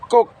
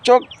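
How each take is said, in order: First: The word begins with a k sound. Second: The word begins with a ch sound. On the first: The speaker calls it right. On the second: The speaker calls it wrong.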